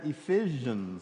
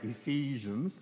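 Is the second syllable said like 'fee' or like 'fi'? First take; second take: fi; fee. First: The second syllable has a short 'i' vowel. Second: The second syllable has a long 'ee' vowel. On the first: The speaker calls it wrong. "I've always said Ephesians. I could spell E-P-H-I-S-I-A-N-S" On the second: The speaker calls it right. "I'm going to try to say Ephesians"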